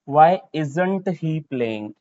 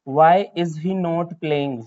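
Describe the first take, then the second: First: Not is joined to is as isn't. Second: Not is said as a separate full word.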